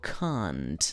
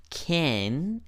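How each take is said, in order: First: Drawn-out "can't", like "kahnt"; "can't" with a long open back vowel; negative can't. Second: Drawn-out "Can", like "ken"; "Can" with the vowel of "cat", held long; positive can. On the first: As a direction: model "can't" slowly with a broad ah. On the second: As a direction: model "Can" slowly with a front a. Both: Shown as a demonstration. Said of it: "Hay que pronunciarlo bien".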